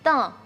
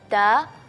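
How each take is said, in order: First: The syllable is voiced through the nose. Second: The syllable is voiced through the mouth only. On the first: The speaker calls it wrong. "suaranya kita alihkan ke uh, ke rongga hidung" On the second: The speaker calls it right. "seharusnya kita baca"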